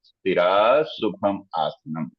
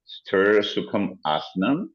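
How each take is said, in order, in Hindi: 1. हर शब्द अलग है; पहले शब्द का अंत 'a' से होता है। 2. शब्द आपस में जुड़ते हैं; पहला शब्द अपना अंतिम 'a' छोड़ देता है। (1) "मैंने लफ्ज अलग अलग बोले" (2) "जब मैं इसको कलेक्टिवली, इकट्ठा जो है वो बोलूंगा तो ए साइलेंट कर दूंगा"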